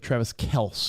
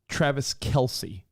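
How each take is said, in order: First: The surname is one syllable, ending in 's'. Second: The surname has two syllables, ending in 'see'. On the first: The speaker calls it wrong. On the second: The speaker calls it right.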